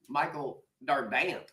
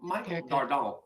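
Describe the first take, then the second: First: The name is said with a Texan pronunciation. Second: The name is said the ordinary local way.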